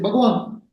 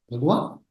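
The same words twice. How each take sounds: First: "Bhagwan" stated with a falling tune; "Bhagwan" as a settled statement; simple answer. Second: "Bhagwan" as a low, soft question, rising at the end; questioning "Bhagwan", starting low and lifting; disbelieving echo. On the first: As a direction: answer "Bhagwan" as plain fact, voice dropping at the end. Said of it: "He says". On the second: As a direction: echo "Bhagwan" back in doubt, pitch climbing. Teacher echoes the boy's answer disbelievingly. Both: Retold or imitated.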